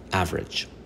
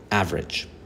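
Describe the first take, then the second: First: The middle vowel is silent. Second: The same.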